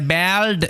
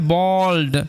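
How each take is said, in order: First: The vowel sounds like the a in cat. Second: The vowel sounds like the a in ball. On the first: The speaker calls it wrong. "এরকম ভাবে উচ্চারণ করবে না" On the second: The speaker calls it right. "এটার উচ্চারণ হবে বল্ড"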